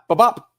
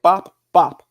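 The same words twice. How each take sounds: First: The two sounds run quickly together. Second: The two sounds are separated by a pause. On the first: The punches were thrown as a quick combination. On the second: The punches were thrown one at a time. "It was like"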